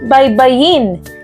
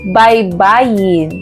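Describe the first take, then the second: First: Said quickly, stress on the last syllable. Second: Said slowly, stress before the last syllable. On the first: To spell out the letters of a word in order. "Ito ay nasa diing mabilis" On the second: A shore or bank of a river or sea. "kung ito ay ating bibigkasin ng dahan-dahan"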